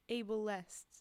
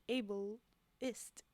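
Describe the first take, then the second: First: The last syllable is clear, sounding like 'est'. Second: The last syllable is reduced, sounding like 'ist'. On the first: "I'm emphasizing now" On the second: "when I say it, it sounds like able-ist"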